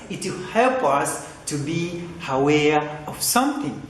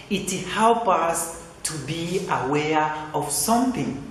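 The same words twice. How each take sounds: The two takes are said the same way.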